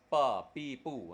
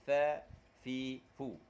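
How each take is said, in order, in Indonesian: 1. Suku katanya diawali bunyi p. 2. Suku katanya diawali bunyi f. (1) "Kalau guna bibir atas dia akan bunyi pi. ... tak betul" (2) "dia bunyi f"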